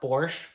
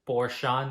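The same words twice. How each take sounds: First: The word ends without a final vowel. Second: The word ends with an audible final vowel. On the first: The speaker calls it wrong. "not Porsche" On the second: The speaker calls it right. "that's how you pronounce it"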